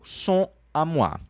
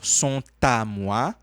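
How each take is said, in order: First: Sont and à are said without a linking t. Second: The t of sont links into à.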